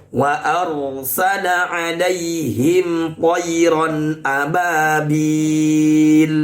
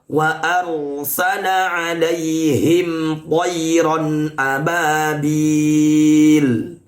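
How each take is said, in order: The two takes are said the same way.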